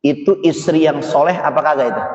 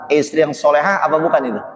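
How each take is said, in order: First: Said in the usual way. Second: Quick rephrased question with solehah stressed; fast rephrase. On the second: Shown as a demonstration. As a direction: rattle it off fast, leaning on solehah. (cepat, tekan kata solehah)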